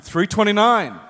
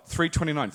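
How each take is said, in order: First: Raised, higher call-out. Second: Soft, offhand murmur; casual undertone. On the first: Passing the friend's room number to the waiter, called out brightly. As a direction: announce the room number for all to hear. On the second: Fishing for a friend's room number to bill him, quietly casual. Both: Acted.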